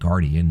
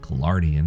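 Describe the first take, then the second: First: It is said as gar-dee-an, three syllables. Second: It is said as ga-lar-dee-an, with extra syllable. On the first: The speaker calls it right. "if you want to say it right" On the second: The speaker calls it wrong. "There's no such thing as a Galardian"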